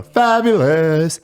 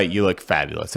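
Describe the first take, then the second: First: Loud, high, drawn-out camp exclamation; jesting. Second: Said in the usual way. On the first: Retold or imitated. Joking with friends while dressed up for a skit, jesting. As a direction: stretch it out big and high, hamming it up. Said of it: "I do it in a jesting manner".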